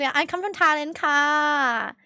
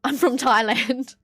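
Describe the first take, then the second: First: Imitated Thai accent, lingering on the last syllable; playful Thai-English accent; put-on Thai accent. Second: Slow, broad Australian accent; drawn-out Aussie accent. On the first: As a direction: switch into a mock Thai accent. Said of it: "I should have just switched my accent". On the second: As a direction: say it in plain, unmistakable Australian. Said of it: "With the most Australian fucking accent". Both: Shown as a demonstration.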